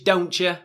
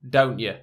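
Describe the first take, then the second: First: The T is clearly pronounced before the y sound. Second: The T is barely sounded before the y sound. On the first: "American English, ... more of a pronounced T in the contraction" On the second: "British English, ... The T isn't really sounded so much"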